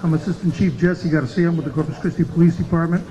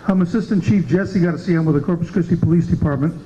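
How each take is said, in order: Both takes have the same delivery.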